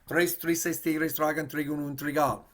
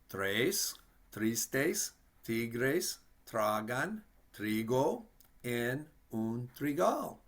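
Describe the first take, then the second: First: It is said very fast. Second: It is said at a moderate pace.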